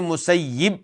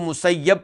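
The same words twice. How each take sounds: First: The vowel before the final b is 'i'. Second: The vowel before the final b is 'a'. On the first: "या के नीचे कसरा पढ़ें" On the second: "या के ऊपर जबर पढ़ें, फतह पढ़ें"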